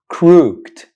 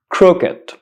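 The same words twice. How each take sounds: First: The ending is said as one syllable, crookt. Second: The ending is said as a separate syllable, crook-id. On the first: The speaker calls it wrong. "Most students pronounce this word crooked, mistakenly and incorrectly" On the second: The speaker calls it right. "The correct pronunciation of this word is crooked"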